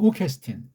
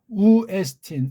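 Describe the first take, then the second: First: A k sound links the two vowels together. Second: The two vowels meet with no consonant between. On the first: The sounds are heard clearly. The speaker calls it right. "연독한 우케스틴" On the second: The meaning becomes unclear. The speaker calls it wrong. "우에스틴 이게 뭔 말인지를 몰라서"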